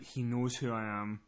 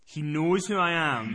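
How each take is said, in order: First: Low, soft, slow inner voice; hushed realisation. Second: "He knows who I am" slow and spelled out at full voice; emphatic realisation. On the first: Caller realising he is recognised, hushed and slow. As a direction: murmur it slowly to yourself. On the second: Caller sure he is recognised, slow and emphatic. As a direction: press slowly on "knows". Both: Retold or imitated.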